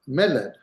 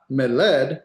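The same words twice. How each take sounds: First: Meled with the accent on the first syllable, me; stress on first syllable. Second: Meled with the accent moved onto the last syllable, led; wrong final-syllable stress. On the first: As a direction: hit the me of meled, drop off on led. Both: Shown as a demonstration. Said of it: "Hear the difference?".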